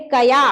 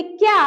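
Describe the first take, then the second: First: कया said ka-ya, two syllables; कया with an open a after k; full k sound. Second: क्या said kya, one syllable; क्या with k run straight into ya; joined half k. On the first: Teacher reading कया against क्या, two syllables. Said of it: "कितना अंतर आ गया". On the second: Teacher reading क्या against कया, one syllable. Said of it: "इसको पढ़ेंगे कया". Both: Shown as a demonstration.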